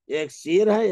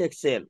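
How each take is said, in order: First: سیر said as "seer" with a long ee; teacher saying سیر as "seer"; ya maroof. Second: سیر said as "ser" with a short open e; teacher contrasting سیر as "ser"; ya majhool. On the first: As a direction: stretch سیر into a clear "seer". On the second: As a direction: say سیر as "ser", not "seer". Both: Shown as a demonstration. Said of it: "سیر اور سیر".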